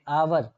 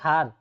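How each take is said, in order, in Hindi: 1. यह शब्द स्वर ध्वनि से शुरू होता है। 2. यह शब्द उच्चारित h ध्वनि से शुरू होता है। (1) "आवर पढ़ते हैं" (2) "हार नहीं पढ़ते हैं"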